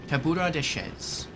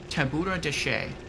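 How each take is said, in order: First: The name ends with a z sound. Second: The name ends without a z sound. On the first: The speaker calls it right. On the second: The speaker calls it wrong.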